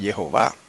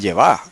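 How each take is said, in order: First: The name is said with the middle o vowel. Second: The name is said without the middle o vowel. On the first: "no Jehová" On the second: "leerlo como está escrito ahí, sin la O"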